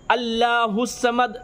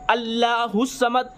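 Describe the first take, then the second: No difference in how they are said.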